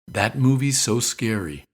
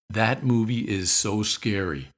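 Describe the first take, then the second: First: It sounds like a plain, matter-of-fact statement. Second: It sounds emphatic, with "is" not contracted.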